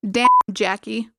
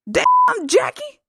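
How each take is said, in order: First: It is said in his normal voice. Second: It is said as an impression of Kelso.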